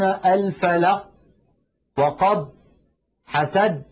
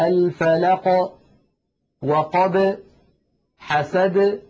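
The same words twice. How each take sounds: First: The final consonants are stopped abruptly without release. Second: The final consonants are released with a slight bounce. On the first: The speaker calls it wrong. "لا يقولون الفلق وقب حسد" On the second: The speaker calls it right. "هكذا مثلا في سورة الفلق"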